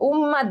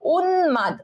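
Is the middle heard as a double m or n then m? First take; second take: double m; n then m. First: The middle sounds as a doubled m. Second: The middle sounds as n followed by m. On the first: The speaker calls it wrong. "উম্মাদ না" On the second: The speaker calls it right. "উন মাদ, উন্মাদ"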